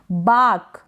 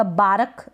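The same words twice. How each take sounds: First: "बाक" में लंबा आ, र गायब; सही मिसाल "बाक", एक ही हिस्से में; र के बिना. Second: "बारक" धीरे, र पूरा बा-रक; गलत मिसाल "बारक" में र के बाद स्वर; पूरा र, गलत रूप. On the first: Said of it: "र को भी आप बिल्कुल फुल प्रोनाउंस". ("बाक" में र बोले बिना सीधे क पर) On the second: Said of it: "बारक नहीं". ("बारक" में र खुलकर सुनाएँ) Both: Shown as a demonstration.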